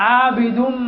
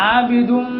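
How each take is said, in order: Both takes have the same delivery.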